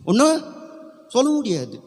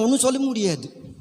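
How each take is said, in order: First: ஒண்ணும் pitched high, then a pause; emphatic repeat. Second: Said in the usual way. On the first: Real, not acted. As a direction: punch ஒண்ணும் high and set it apart.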